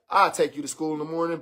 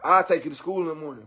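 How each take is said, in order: First: Low, soft, quick giving in; a low, quick soft give-in. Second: Low, quick soft give-in again; soft giving in. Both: Retold or imitated. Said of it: "broke down and been like".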